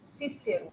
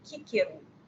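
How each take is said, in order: First: The name begins with an s sound. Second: The name begins with a k sound. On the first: This is the usual Portuguese way. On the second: This is the classical Latin way a parent used.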